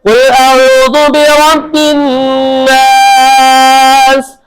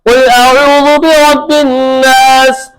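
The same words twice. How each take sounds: First: The long vowel in 'nas' is drawn out. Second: The long vowel in 'nas' is kept short. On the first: "बाद औकात लंबा कर देते हैं" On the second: "बाद औकात बिल्कुल मुख्तसर कर देते हैं"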